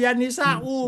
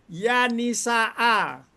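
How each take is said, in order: First: The noun ends with a different vowel. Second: The noun ends with an 'a' vowel. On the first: The speaker calls it wrong. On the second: The speaker calls it right. "Kalau ya itu di fathah"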